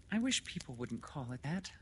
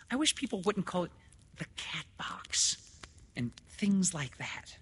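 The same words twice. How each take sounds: First: High, restrained woman's voice; mild objection. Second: High, louder repeat, slowing and fading breathily; insistent objection. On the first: Lenora's first objection to the doctor, mild and high. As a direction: object mildly, higher, without pushing. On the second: Woman repeating her objection to doctor, insistent and high. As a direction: start quick and high, then drag out the phrase. Lenora repeats herself after "What?. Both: Acted.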